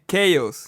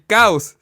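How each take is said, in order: First: It is pronounced with English sounds, like 'kay-oss'. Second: It is pronounced with Spanish sounds, like 'cows'. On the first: It means disorder. The speaker calls it right. "se dice chaos" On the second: It sounds like the English word for cows. The speaker calls it wrong. "Caos en inglés no se dice caos"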